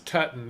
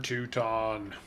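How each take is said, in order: First: The first vowel sounds like 'uh'. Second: The first vowel sounds like 'oo'. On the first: The speaker calls it right. "that's Tutton, isn't it?" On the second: The speaker calls it wrong. "I've totally been pronouncing that Teuton"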